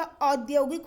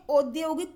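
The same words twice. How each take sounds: First: औद्योगिक opening on a slow "au"; correct औद्योगिक. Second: औद्योगिक opening on close "o", as odyogik; mispronounced औद्योगिक. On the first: Teacher gives the right word, औद्योगिक as audyogik, slowly. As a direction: draw out open au in औद्योगिक. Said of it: "औद्योगिक होता है". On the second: Teacher rejects the wrong form, औद्योगिक as odyogik. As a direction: round the first vowel of औद्योगिक to o. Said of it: "औद्योगिक कुछ नहीं होता". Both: Shown as a demonstration.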